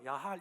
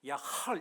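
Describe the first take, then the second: First: The word ends with a plain, soft h sound. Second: The word ends with a throaty, guttural h sound. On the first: The speaker calls it wrong. "우리말로 야할 이러면 안 되고" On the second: The speaker calls it right. "약간 이렇게 끓는 마무리하고 히브리어기 때문에 야할 이렇게 발음해야 돼요"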